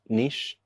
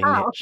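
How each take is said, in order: First: The word is said the British way. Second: The word is said the American way. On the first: "we say niche" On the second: "Americans say niche"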